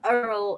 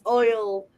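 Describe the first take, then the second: First: The vowel sounds like 'er', as in earl. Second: The vowel sounds like 'oy', as in boy. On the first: This is the New Orleans way of saying it. The speaker calls it wrong. "It's not Earl" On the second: This is the proper way of saying it. The speaker calls it right. "It's oil"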